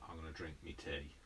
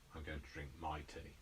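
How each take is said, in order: First: The word before 'tea' is said as 'me'. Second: The word before 'tea' is said as 'my'. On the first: "I will say um, me instead of my" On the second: "rather than"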